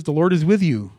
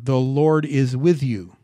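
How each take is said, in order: First: Said in the usual way. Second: "The Lord is with you" slowly, each word weighted; emphatic repeat. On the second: Shown as a demonstration. Preacher underlining the verse for the congregation, slow emphatic "The Lord is with you". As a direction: drive home "The Lord is with you", drawn out and loud. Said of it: "Please don't miss that term".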